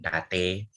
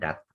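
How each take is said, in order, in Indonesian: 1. Kata ini berakhir dengan tambahan bunyi vokal. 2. Kata ini berakhir dengan bunyi t yang diam. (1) "bukan date" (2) "Saya dat"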